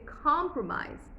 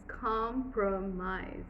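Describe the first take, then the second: First: Said in the usual way. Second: "compromise" slowly in separate pieces, com-pro-mise; written syllables. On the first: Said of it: "You say compromise". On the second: Shown as a demonstration. Teacher showing written syllables, "compromise" stiffly drawn out. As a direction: spell out each syllable of "compromise" with full vowels. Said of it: "if you had to do written syllables".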